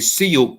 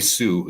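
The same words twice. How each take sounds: First: The word is said the German way. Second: The word is said the usual English way. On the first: "In Germany, they say Sioux" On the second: "they don't say Sioux"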